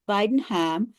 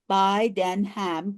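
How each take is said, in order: First: Said in the usual way. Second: Bidenham slowly broken into Bi-den-ham; Bidenham, slow, each syllable given separately. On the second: Shown as a demonstration. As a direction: count out the three syllables of Bidenham. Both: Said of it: "that's three syllables".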